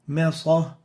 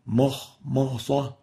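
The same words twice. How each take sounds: First: The m is light and thin. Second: The m is heavy and velarized. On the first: The speaker calls it right. "The right way of pronouncing it" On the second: The speaker calls it wrong. "but not makhmasa"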